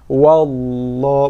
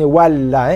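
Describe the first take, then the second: First: The l sound is heavy and thick. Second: The l sound is light and thin. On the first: The speaker calls it right. "dibaca dengan tebal tafkhim" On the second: The speaker calls it wrong.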